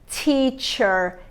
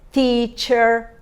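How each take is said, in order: First: The t has a strong hissing burst of air. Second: The t is plain, without a burst of air. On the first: The speaker calls it right. "Eu faço T e junto com esse T eu tenho um S" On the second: The speaker calls it wrong.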